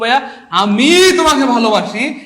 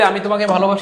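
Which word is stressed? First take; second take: আমি; none. First: The word আমি is strongly stressed. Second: It is said plainly, with no special stress.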